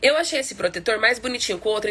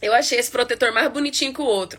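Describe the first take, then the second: First: It is said with a neutral Brazilian accent. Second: It is said with a Northeastern Brazilian accent.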